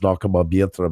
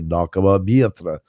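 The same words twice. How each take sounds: First: The pitch stays fairly flat across the syllables. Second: The pitch goes up and down across the syllables. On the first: The speaker calls it wrong. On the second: The speaker calls it right.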